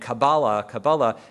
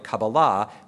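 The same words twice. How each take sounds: First: The stress is not on the third syllable. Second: The stress is on the third syllable.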